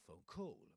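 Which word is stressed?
call. The stress falls on the second word. The speaker calls it wrong. "That's a not phone call"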